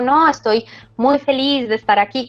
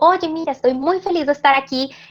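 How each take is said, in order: First: It sounds sad and unconvincing. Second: It sounds genuinely happy and lively.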